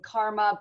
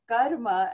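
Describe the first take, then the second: First: It is said the familiar English way. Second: It is said a different, non-English way. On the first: The speaker calls it wrong. "you guys might be used to saying karma" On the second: The speaker calls it right. "it is pronounced karma"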